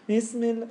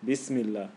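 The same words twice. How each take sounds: First: High, pinched "Bismillah"; squeaky imitation. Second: Said in the usual way. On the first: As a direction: mimic the student suddenly turning squeaky. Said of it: "Where did that come from?". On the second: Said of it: "Just say your normal voice".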